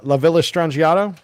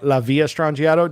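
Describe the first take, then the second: First: The double L is said as an L sound. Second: The double L is said as a Y sound. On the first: "I always say La Villa" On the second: "I never say it that way"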